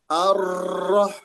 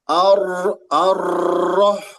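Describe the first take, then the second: First: The r is trilled only lightly. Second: The r is trilled strongly and repeatedly. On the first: The speaker calls it right. "ar-roh gitu" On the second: The speaker calls it wrong.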